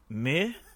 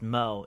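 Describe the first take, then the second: First: The name is said with an 'eh' vowel. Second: The name is said with an 'oh' vowel. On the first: The speaker calls it right. "it's pronounced Meh" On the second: The speaker calls it wrong. "which is actually not pronounced Mo"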